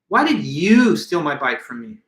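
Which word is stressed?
you. The word "you" carries the main stress. Of all people, this person was not expected to steal it. "I could have added the emphasis to the word you"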